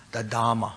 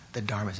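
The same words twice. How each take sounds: First: "the Dhamma" with the R swallowed into a doubled M, DHAM-ma; R dropped. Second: "the Dharma" said with the R heard, DHAR-ma. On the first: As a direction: let the R vanish in "the Dhamma". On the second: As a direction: keep the R in "the Dharma". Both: Shown as a demonstration. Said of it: "the R's didn't come through".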